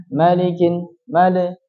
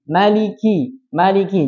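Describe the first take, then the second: First: Malikin and male with li gone to le; wrong le. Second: Maliki with a crisp, pure li; clear li. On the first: Teacher warning students against saying male. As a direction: slur the li into le in male. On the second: Teacher modelling the correct li in maliki. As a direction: stress the clean li in maliki. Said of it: "jadi harus terdengar li". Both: Shown as a demonstration.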